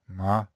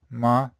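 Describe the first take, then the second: First: The pitch stays low and flat throughout. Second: The same.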